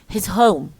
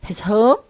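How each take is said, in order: First: The voice falls at the end. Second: The voice rises at the end.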